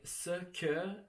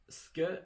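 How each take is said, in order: First: Both syllables are said with their vowels. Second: The first vowel is dropped, making one syllable. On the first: "instead of pronouncing the full word" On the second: "you could just say ske"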